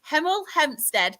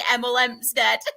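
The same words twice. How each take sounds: First: It is said slowly and poshly, with clear H sounds. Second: It is said in a northern accent, dropping H sounds. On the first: "I need to say it slow, so I'll sound quite posh" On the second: "my northern accent wanted to say"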